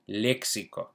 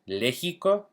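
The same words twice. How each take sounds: First: The x is not a throaty h-like sound. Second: The x is a throaty h-like friction sound. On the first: The speaker calls it right. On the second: The speaker calls it wrong. "Do we think Lexico?"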